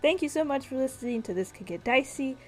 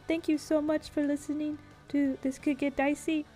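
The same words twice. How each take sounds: First: It is spoken in the speaker's ordinary natural voice. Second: It is spoken in an exaggerated put-on voice. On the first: "I'll talk in my normal voice" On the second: "I'm just kidding"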